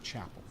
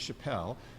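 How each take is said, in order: First: The name is given a British pronunciation. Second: The name is given a French pronunciation. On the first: This is the speaker's own name. "The British pronunciation is" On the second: This is the other person's name. "hence the French pronunciation"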